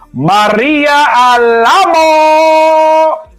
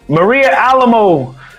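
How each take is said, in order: First: The name is yelled out loudly with flair. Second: The name is read out at normal volume.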